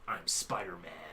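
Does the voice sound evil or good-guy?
evil. An evil-sounding voice of Peter Parker.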